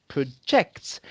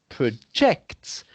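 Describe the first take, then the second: Both takes have the same delivery.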